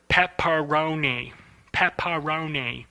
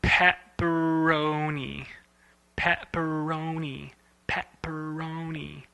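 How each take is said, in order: First: Pepperoni with the jaw snapping on every syllable; slow pepperoni, a beat on each syllable; choppy pepperoni. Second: Slow pepperoni with only two jaw opens; smooth pepperoni. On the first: Showing the animators' wrong way, slow and choppy. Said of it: "is something like this". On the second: Showing the student the right way, slow and soft. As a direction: pepperoni spoken slowly and softly, fading. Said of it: "Here we go, let's try it out". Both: Shown as a demonstration.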